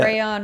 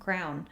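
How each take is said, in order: First: The word is said as two syllables, cray-on. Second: The word is said like the word crown.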